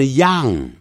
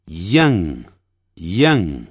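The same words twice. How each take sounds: First: Put-on "young" wrongly said with an open ah, like "yahng"; common mispronunciation. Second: Put-on "young" with a y glide and short uh vowel; correct pronunciation. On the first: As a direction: say "young" as learners do, rhyming with 羊. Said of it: "不是young啊". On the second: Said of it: "很多人念成young， 不是young啊". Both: Shown as a demonstration.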